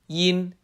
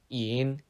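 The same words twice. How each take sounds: First: The pitch stays level and flat. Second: The pitch dips down then rises.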